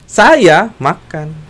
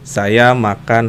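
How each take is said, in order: First: The word saya is said on a high pitch. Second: The phrase is said on a flat, level pitch. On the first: "sayanya nadanya tinggi" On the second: "nah itu kan datar, nggak ada nadanya"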